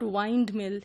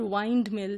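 First: The vowel in 'wind' is a long 'eye' sound. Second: The vowel in 'wind' is a long 'eye' sound.

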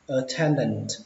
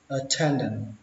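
First: The final t sound is pronounced. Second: The final t sound is dropped.

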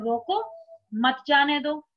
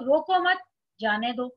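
First: The pause comes right after रोको. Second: The pause comes right after मत.

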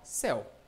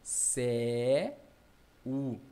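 First: The word is said smoothly as one syllable. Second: The word is broken into two separate syllables. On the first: The speaker calls it right. "Não, você fala céu, ó" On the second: The speaker calls it wrong. "Eu acho que é assim, ó"

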